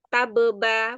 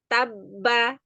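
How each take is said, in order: First: The two b sounds are split by a vowel. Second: The two b sounds merge into one held b. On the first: The speaker calls it wrong. "bacanya bukan tabeba" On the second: The speaker calls it right. "Tabba langsung leburkan ba yang pertama ke dalam ba yang kedua"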